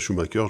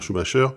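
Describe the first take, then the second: First: The name is said with an English accent. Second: The name is said with a French accent.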